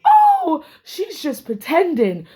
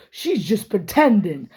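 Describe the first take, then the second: First: High, laughing sneer of a brush-off; mocking dismissive quote. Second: Said in the usual way. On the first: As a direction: mimic her scoffing it off with a laugh. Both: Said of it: "all I could hear Valerie saying was".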